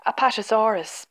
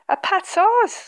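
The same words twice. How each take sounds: First: Said in the usual way. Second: "Apatosaurus" as a much higher, louder rising question; teasing question. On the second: A narrator's reading. Dad teasing Michael about the dinosaur's name, "Apatosaurus" pitched up as a question. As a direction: echo "Apatosaurus" with a smile, lifting it high. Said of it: "smiled Dad".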